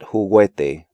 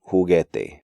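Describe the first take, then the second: First: The u is sounded after the g. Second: The u is silent after the g. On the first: The speaker calls it wrong. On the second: The speaker calls it right. "U is silent in these sequences"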